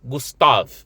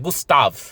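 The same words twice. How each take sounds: First: The name ends on the v consonant. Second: The same.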